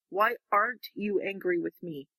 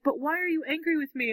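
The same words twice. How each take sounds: First: "WHY" stressed, at usual pitch; acted counter-question. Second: "why ARE you", lifted high on ARE; acted questioning. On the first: He throws her question back, "Why" stressed without raised pitch. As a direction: turn it back evenly, leaning on "Why". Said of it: "I love his response". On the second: She questions him about his anger, "are" stressed high in puzzlement. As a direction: ask it high-pitched, leaning on "are". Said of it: "she's like".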